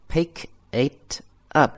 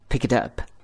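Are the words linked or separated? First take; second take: separated; linked. First: The three words are said separately. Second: The three words are linked together. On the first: "分开读是" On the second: "如果它连在一起呢就是"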